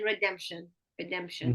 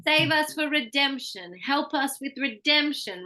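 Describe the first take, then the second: First: "redemption" with level, unstressed syllables; Vietnamese rhythm. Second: Higher pitch, DEM stressed in "redemption"; English syllable stress. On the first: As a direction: give "redemption" no raised middle syllable. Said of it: "this is the rhythm of Vietnamese". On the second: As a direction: range the pitch up, punching "redemption" in the middle. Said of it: "really ranging my pitch and going higher". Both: Shown as a demonstration.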